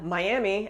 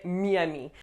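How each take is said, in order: First: It is said with an English accent. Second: It is said with a French accent. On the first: The speaker calls it wrong. "It wouldn't necessarily be understood" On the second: The speaker calls it right. "you need to say Miami"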